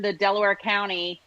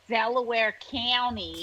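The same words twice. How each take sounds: First: Said in the usual way. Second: Slow Delco accent, County as "Cany"; Philly-suburb accent with a squashed County vowel; Delaware County accent. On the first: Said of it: "how hard it was to learn". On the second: Shown as a demonstration. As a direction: say it like a Delco local, drawn out. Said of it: "learn the Delaware County ... accent".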